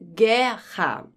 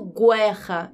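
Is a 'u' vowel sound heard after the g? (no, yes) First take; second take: no; yes. First: No 'u' sound is heard after the g. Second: A 'u' sound is heard after the g. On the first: The speaker calls it right. "eu falo guerra" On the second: The speaker calls it wrong. "Eu não falo guerra"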